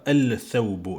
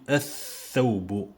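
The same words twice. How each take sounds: First: The L of the article is clearly pronounced. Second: The L is silent; the next consonant is doubled. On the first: The speaker calls it wrong. "Je dis pas الثوب" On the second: The speaker calls it right. "Je dis الثوب"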